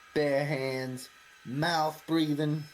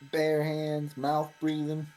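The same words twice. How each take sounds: First: The line is delivered with forceful, intense vehemence. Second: The line is delivered in a calm, plain manner.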